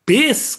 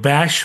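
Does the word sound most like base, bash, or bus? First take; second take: base; bash. First: It has an 'ay' vowel, like base. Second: It ends in a 'sh' sound, like bash. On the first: The proper pronunciation few Bengalis use. The speaker calls it right. "কেউই বেস কথাটা উচ্চারণ করতে পারে না" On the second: A common Bengali mispronunciation. The speaker calls it wrong. "কেউ ব্যাশ বলে"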